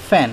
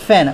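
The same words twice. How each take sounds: First: "ফ্যান" begun with an f sound; corrected pronunciation. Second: "ফ্যান" said with a p-like start; wrong pronunciation. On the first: Teacher correcting the F word, "ফ্যান" said with initial f. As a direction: say "ফ্যান" as fan, not pen. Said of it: "এটা হবে ফ্যান". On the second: Teacher warning against a misreading, "ফ্যান" begun like pen. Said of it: "ফ্যান না এখানে". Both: Shown as a demonstration.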